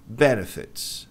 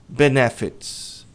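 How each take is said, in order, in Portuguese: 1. A tônica fica na primeira sílaba. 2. A tônica não fica na primeira sílaba. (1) "A pronúncia correta é B. A tônica está aqui" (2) "Como é que as pessoas geralmente dizem?"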